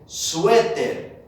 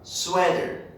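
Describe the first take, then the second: First: The word is said strongly, in Spanish. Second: The word is said softly, in English. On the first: "Suéter in Spanish sounds stronger" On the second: "In English, with the teacher Jacob, softer"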